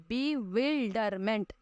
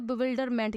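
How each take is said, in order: First: Bewilderment drawn out very slowly as be, wil, der, ment; slow teaching breakdown of bewilderment, beat by beat; syllable by syllable. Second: Said in the usual way. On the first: Shown as a demonstration. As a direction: stretch bewilderment into four separate syllables. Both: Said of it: "इसके चार syllable है".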